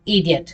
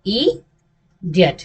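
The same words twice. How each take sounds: First: इडियट as one quick easy word; relaxed, unbroken इडियट; joined, easy. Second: इडियट split, first vowel alone, pause, then diyat; इडियट taken apart slowly; broken into parts. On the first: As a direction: run इडियट together without a pause. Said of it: "ऐसे आराम से बोलते हैं". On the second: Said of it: "क्या बोलते हैं". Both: Shown as a demonstration.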